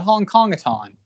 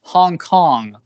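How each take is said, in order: First: "Hong Kong a ton" with "a ton" tacked on as a wrong ending; "Hong Kong a ton" said as the wrong version; misheard title. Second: "Hong Kong" said alone, cleanly, with no "a ton"; "Hong Kong" set against the wrong version; corrected title. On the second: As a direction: give the right title "Hong Kong" with a falling close. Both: Shown as a demonstration. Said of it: "not Hong Kong a ton".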